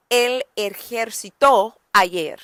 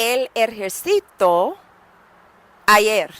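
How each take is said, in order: First: Slow, "ejercitó" stressed on its last syllable; stress on final TÓ. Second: "ejercito" stressed on the next-to-last syllable, e-her-SEE-to. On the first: Teacher modelling the past tense, final stress on "ejercitó". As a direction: land hard on the end of "ejercitó". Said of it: "We wanna say". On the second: Teacher showing the wrong tense, stress on "ci" in "ejercito". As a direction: lean on the "ci" in "ejercito". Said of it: "Because then we are saying". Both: Shown as a demonstration.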